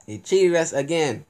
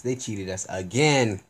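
First: Louder, higher, stressing cheated; louder outrage. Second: Said in the usual way. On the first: Real, not acted.

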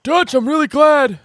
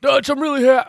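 First: Much higher and louder put-on John voice; John Marston impression. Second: Higher, louder attempt at John's voice; John Marston impression. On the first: To Dutch, a lightly voiced John Marston thanking him. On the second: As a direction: try on John's rasp and give up. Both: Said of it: "John Marston's hard for me to do".

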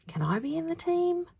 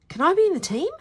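First: Put-on high, small boy's timid question. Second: Put-on high, loud boyish question; eager question. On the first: A narrator's reading. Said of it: "asked Bruno timidly". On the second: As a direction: ask out loud, pitched high. First take, before timid retake.

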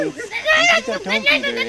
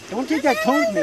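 First: "Don't take that tone from me there" jumped up high and stretched out slow; the retort shot into a high, slow squeal; squeaky high. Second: Said in the usual way. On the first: Acted. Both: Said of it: "repeat of the same line".

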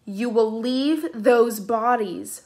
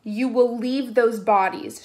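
First: Very slow, forceful command; even more forceful. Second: Slow, firm command. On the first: Piper repeating her order, more forceful. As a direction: press every word down. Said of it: "Piper repeated even more forcefully". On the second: Piper ordering the spirits out, commanding. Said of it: "she commanded". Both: A narrator's reading.

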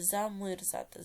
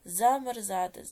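First: "замерзати" with И replacing the E; pronounced with И. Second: "Замерзати" with a clear open E in "мер"; pronounced with E. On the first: Teacher offering pupils a spelling choice, "замерзати" with И. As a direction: say "замерзати" as za-myr-ZA-ty. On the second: Teacher offering pupils a spelling choice, "Замерзати" with E. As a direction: say "Замерзати" as za-mer-ZA-ty. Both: Shown as a demonstration. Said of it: "яку букву Е чи И".

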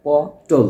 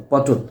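First: পটল broken into two beats, প then টোল, louder; syllable by syllable. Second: Said in the usual way. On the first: Shown as a demonstration. Teacher showing students how পটল is pronounced, syllable by syllable. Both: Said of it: "উচ্চারণ লিখি আমরা কি বলি".

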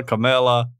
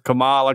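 First: Kamala with a short E, kuh-MEL-uh; alternative pronunciation. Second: Kamala with an open AH, kuh-MAH-luh; alternative pronunciation. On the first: Host trying the other version, Kamala said kuh-MEL-uh. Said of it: "I was just wondering if Kamala". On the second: Host unsure of the name, Kamala said kuh-MAH-luh. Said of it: "I've always heard it pronounced Kamala". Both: Shown as a demonstration.

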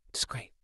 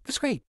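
First: Whispered aside. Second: Much higher, sarcastic brightness; high mock cheer. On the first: Whispering to himself before saying it aloud. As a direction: breathe it out unvoiced. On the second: Answering the crying kid with high mock cheer. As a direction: squeak it out with fake delight. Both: Shown as a demonstration.

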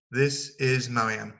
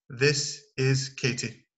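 First: This is Marianne, slow and clear; model introduction. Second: This is Katie, slow and clear; model introduction. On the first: Teacher models the return introduction, slowly. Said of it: "Et au retour". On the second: Teacher models introducing Katie to students, slow. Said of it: "Vous pouvez dire". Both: Shown as a demonstration.

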